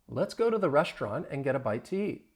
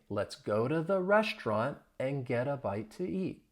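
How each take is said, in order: First: The sentence is spoken fast. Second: The sentence is spoken slowly. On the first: "at a faster speed" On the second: "Say it slowly after me"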